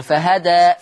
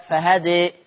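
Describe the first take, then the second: First: فهدى with open a ending; with fatha. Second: فهدى with the final vowel leaned toward e; with taqlil. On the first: Teacher demonstrating the fatha reading of فهدى. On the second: Teacher demonstrating the taqlil reading of فهدى. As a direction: say فهدى with the ending tilted from a to e. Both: Shown as a demonstration. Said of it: "لما أقف على فهدى اللي هي الفتح والتقليل".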